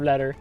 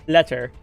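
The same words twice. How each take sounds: First: The middle consonant is a soft D-like flap. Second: The middle consonant is a clear T sound. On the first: The speaker calls it wrong. "instead of letter" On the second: The speaker calls it right. "overpronounce some things like letter"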